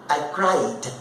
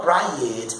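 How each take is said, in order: First: "cried" as one syllable, cride; just add a d to cry in "cried"; correct ED ending. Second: "cried" as two syllables, cry-ed; wrong ED ending. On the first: Teacher giving the past of cry, one syllable. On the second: Teacher showing what not to say, cry-ed. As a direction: put a false vowel before the d in "cried". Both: Shown as a demonstration. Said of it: "Eu não falo cried".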